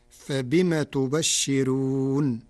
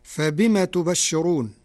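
First: تبشرون very slow, with a light راء and the نون sounded with kasra; Warsh reading. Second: Said in the usual way. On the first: Shown as a demonstration. Teacher demonstrating Warsh for radio listeners, very slow recitation. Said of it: "بكسر النون مع ترقيق الراء". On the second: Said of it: "قرأ ورش كلمة تبشرون".

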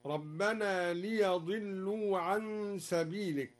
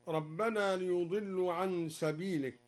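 First: "ليضلوا" said li-yadillu, with ya not yu; slow recitation, open "ya" in "ليضلوا"; fatha on the ya. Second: Said in the usual way. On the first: Shown as a demonstration. Teacher showing al-Duri's reading, "ليضلوا" with fatha, li-yadillu. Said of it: "قرأ الدوري بفتح الياء هكذا". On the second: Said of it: "قرأ الدوري بفتح الياء".

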